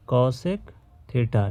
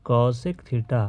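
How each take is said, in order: First: Cosec theta drawn out very slowly, syllable by syllable; teacher dictating cosec theta at a crawl; slow spelled-out term. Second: Said in the usual way. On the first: Shown as a demonstration. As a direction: stretch cosec theta out so students can copy it. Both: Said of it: "क्या बोलते हैं?".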